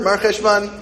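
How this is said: It is said smoothly as one word.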